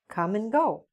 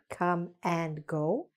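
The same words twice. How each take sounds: First: 'And' is reduced to a short n sound. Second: 'And' is pronounced fully with its vowel. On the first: The speaker calls it right. "And is usually pronounced just like n" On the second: The speaker calls it wrong. "Not come and go"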